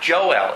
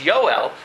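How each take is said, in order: First: The name begins with a J sound. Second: The name begins with a Y sound. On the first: The speaker calls it wrong. "it's not Joel" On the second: The speaker calls it right. "it's Yoel"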